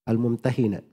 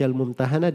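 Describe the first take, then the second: First: The vowel before the final syllable is 'i'. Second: The vowel before the final syllable is 'a'. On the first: "dibaca juga Al-Mumtahinah" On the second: "Dibaca Al-Mumtahanah"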